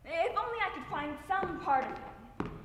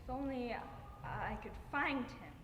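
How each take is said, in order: First: Higher, louder, pleading wish; pleading outburst of grief; desperate longing. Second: Halting, restrained wish; a subdued, aching wish. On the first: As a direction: let the longing surge out. Grieving mother's wish, intensified. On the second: Grieving mother's monologue, first wish. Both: Acted.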